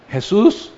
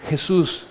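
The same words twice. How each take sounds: First: Starting to raise voice. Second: Soft, tentative first call. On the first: The blind man starts raising his voice to Jesús, searching. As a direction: lift the voice, searching for someone unseen. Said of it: "empieza a alzar su voz". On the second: The blind man first calls to Jesús, softly and tentatively. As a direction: call out timidly, barely raising the voice. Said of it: "Entonces empieza a alzar su voz". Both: Acted.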